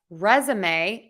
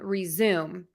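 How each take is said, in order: First: The word is said with three syllables. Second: The word is said with two syllables. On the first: It names the document you need for work. "that has three syllables or three beats" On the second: It is the other word, resume. "that has two syllables or two beats"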